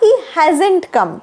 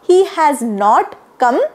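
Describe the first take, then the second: First: 'Has not' is contracted into one word. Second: 'Has not' is said as two full words. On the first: "असं सुद्धा म्हणू शकता" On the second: "असं पण म्हणू शकता"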